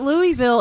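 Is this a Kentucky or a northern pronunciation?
northern. It is said the northern outsider way.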